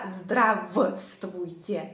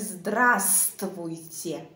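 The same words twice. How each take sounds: First: The first v sound is pronounced. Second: The first v sound is left out. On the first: The speaker calls it wrong. "Je ne dis pas здравствуйте" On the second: The speaker calls it right. "je ne prononce pas v"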